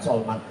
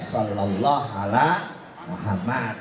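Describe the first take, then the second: First: The phrase is squeezed into one clipped word. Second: The phrase is said with every word complete. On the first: The speaker calls it wrong. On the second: The speaker calls it right. "Paling pendek ya"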